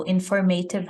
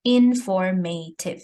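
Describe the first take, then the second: First: Said in the usual way. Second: "informative" broken into four distinct syllables; teacher sounding out the syllables of "informative". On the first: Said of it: "informative has four syllables there". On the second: Shown as a demonstration. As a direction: say "informative" in four separate beats, in-for-ma-tive. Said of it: "the word breaks down as you say it".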